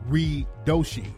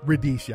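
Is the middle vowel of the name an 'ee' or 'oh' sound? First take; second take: oh; ee. First: The middle vowel sounds like 'oh'. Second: The middle vowel sounds like 'ee'. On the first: The speaker calls it right. "but it's Radoshi" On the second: The speaker calls it wrong. "I keep saying Radishi"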